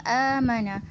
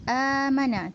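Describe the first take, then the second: No difference in how they are said.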